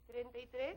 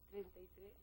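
First: It is said louder than before. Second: It is said at a normal, soft volume.

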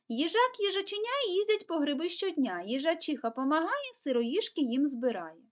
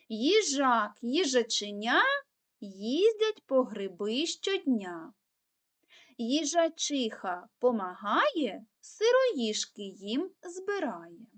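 First: It is said at the fastest pace. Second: It is said at a fairly fast pace. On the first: "Тепер пробуємо ще швидше" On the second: "пробуємо повторювати скоромовочку швидше"

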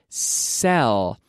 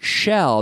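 First: The word begins with an 's' sound. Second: The word begins with a 'sh' sound. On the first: The speaker calls it right. "but sell" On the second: The speaker calls it wrong. "Not shell. There's no SH"

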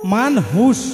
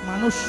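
First: An h sound is heard in the middle. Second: No h sound is heard in the middle. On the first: This is the full, original form of the word. The speaker calls it right. "আসল পরিচয় হচ্ছে মানহুষ" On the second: This is a shortened form of the word. The speaker calls it wrong. "সংক্ষিপ্ত করে মানুষ"

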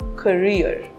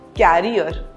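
First: The word sounds like 'career', with the stress on the second syllable. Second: The word sounds like 'carrier', with the stress on the first syllable. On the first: The speaker calls it right. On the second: The speaker calls it wrong.

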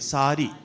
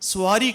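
First: The word begins with a plain s sound. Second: The word begins with an s followed by w. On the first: The speaker calls it right. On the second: The speaker calls it wrong. "స్వారీ కాదండి"

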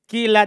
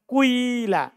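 First: The first vowel is a plain i sound. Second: A slight u glides into an i sound. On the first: "di kasro ini paling kuat" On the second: "dhammah sedikit, kemudian disempurnakan dengan kasro"

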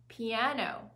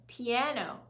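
The two takes are said the same way.

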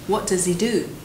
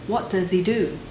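The two takes are said the same way.

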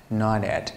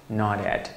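Both takes have the same delivery.

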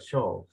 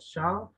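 First: The vowel sounds like an 'o'. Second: The vowel sounds like an 'a'. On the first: The speaker calls it wrong. "Shall no se pronuncia shall" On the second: The speaker calls it right. "se pronuncia shall"

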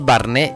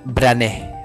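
First: The name is said with the vowel before r. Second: The name is said with the vowel after r. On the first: The speaker calls it wrong. "no es Barney" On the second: The speaker calls it right. "es Brané"

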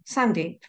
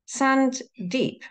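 First: The name is said smoothly as one word. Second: The name is split into two separate words. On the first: The speaker calls it right. "like one word" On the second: The speaker calls it wrong. "Like a dune or something"

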